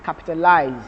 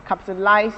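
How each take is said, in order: First: "capitalize" ending in a voiced z, -lize; American ending with z. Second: "Capitalize" ending in a voiceless s, -lise; British ending with s. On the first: Teacher showing American "capitalize" with a voiced z ending. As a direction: say "capitalize" with a buzzing z at the end. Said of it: "and the Americans is voiced". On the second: Teacher showing British "Capitalize" with a voiceless s ending. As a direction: say "Capitalize" with a hissed s at the end. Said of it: "the British is voiceless". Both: Shown as a demonstration.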